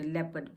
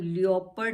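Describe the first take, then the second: First: The word starts with 'leh', the o silent. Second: The word starts with 'lee-o', sounding the o. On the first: The speaker calls it right. "लेपर्ड बोलते हैं इसको" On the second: The speaker calls it wrong. "हम लियोपर्ड नहीं बोलते"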